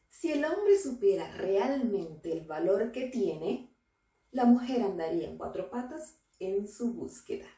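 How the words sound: There is a pause after the word tiene.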